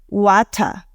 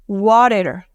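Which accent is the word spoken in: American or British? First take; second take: British; American. First: It is said in a British accent. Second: It is said in an American accent. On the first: "Con un acento británico lo vas a escuchar como" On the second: "eso fue con acento americano"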